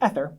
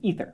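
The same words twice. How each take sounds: First: The first vowel is a short E sound. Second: The first vowel is a long E sound. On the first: The speaker calls it wrong. "I hear a lot of students try and say ether. No" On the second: The speaker calls it right. "it's a long E, we say ether, long E"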